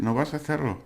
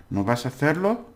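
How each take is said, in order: First: "no vas a hacerlo" falling at the end, no question rise; context-only question. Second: "no vas a hacerlo" climbing high on "hacerlo"; question intonation. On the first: Teacher shows context alone making a question, falling tune. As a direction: say "no vas a hacerlo" letting it drop on "hacerlo". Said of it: "or the context provides it". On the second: Teacher shows the option with intonation, rising question tune. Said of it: "do the intonation". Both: Shown as a demonstration.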